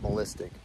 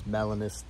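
First: The word has three syllables, with no n. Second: The word has four syllables, including the n. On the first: The speaker calls it wrong. "not melistic. There's an N in there" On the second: The speaker calls it right. "It's melanistic"

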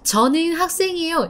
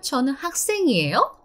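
First: The voice falls at the end. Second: The voice rises at the end.

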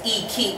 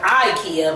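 First: IKEA is said with its original non-American pronunciation. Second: IKEA is said with the usual American pronunciation. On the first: The speaker calls it right. "but it's IKEA" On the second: The speaker calls it wrong. "we've been pronouncing it wrong"

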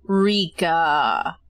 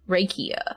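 First: The name is said with two syllables. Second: The name is said with three syllables, rhyming with IKEA. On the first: The speaker calls it wrong. "I don't know how to pronounce it" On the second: The speaker calls it right. "So like IKEA, but with an R"

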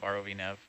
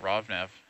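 First: ROV is spelled out letter by letter. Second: ROV is said as a single word. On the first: "but we don't call it ROV anywhere else" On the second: "Why do we call it ROV Nav"

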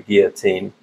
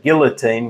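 First: The L sounds in the word are silent. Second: The L sounds in the word are pronounced.

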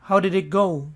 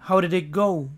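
The two takes are said the same way.

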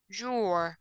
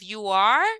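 First: It is said as one short contracted syllable. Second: It is said as two full separate words. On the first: "the contracting form" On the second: "we have the complete forms"

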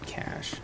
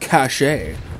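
First: The word is pronounced like cash. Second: The word is not pronounced like cash. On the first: The speaker calls it right. "No. Idiots. It's cash" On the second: The speaker calls it wrong. "we don't say, oh, you've got 128 megs of cache on this motherboard"

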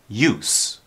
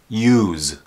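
First: The final consonant is a hissing S sound. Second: The final consonant is a buzzing Z sound. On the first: It is the noun. "then the S sounds like an S" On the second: It is the verb. "the S has a Z sound"

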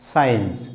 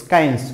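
First: The c is silent. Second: The c is sounded as a k. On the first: The speaker calls it right. "Here C is silent" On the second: The speaker calls it wrong. "আমরা science বলছি না"

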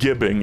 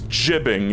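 First: The word begins with a hard g sound. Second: The word begins with a soft j sound. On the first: The speaker calls it wrong. "it is not gibbing" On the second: The speaker calls it right. "yes, it is jibbing, ... it's like giblets"

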